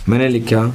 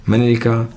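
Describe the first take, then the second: The two takes are said the same way.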